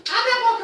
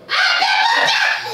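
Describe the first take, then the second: First: Said in the usual way. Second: Slow laughing shout, much louder and higher. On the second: Acted. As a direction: yell it slowly through laughter.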